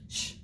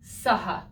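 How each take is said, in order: First: The letters make one blended hushing sound. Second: The s and h are sounded separately. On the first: The speaker calls it right. "It will always be sh" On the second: The speaker calls it wrong. "Never will it be saha"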